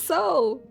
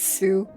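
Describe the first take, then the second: First: The vowel is an 'oh' sound, like so. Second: The vowel is an 'oo' sound, like sue. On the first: The speaker calls it right. "it's pronounced so" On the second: The speaker calls it wrong. "he knows he's pronouncing it wrong, but he still says Sue anyway"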